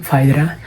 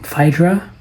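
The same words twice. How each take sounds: First: The name is pronounced the Italian way. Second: The name is pronounced the English way.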